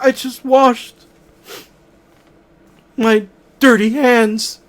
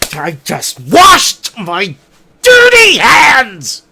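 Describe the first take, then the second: First: It is said in a sad, upset way. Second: It is said in an angry way.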